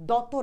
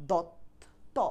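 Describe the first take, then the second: First: দত as doto, with a vowel after the t; open-ended দত, doto; rejected full vowel. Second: দত্ত split slowly, dot, then to; half-pronounced ত. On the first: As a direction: say দত with its ত fully voiced as to. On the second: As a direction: stop hard on the first t of দত্ত. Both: Shown as a demonstration. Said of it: "দত না, দত্ত".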